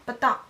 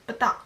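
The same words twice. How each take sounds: The two takes are said the same way.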